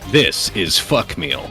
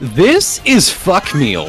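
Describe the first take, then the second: First: It is said in a plain, ordinary voice. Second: It is said in a hyped YouTuber voice.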